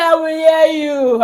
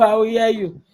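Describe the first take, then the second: First: Slow, higher crying whine; imitating crying daughter. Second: Said in the usual way. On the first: Daughter crying promise to mother, mock sobbing. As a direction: sob the promise out. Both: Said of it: "She cried".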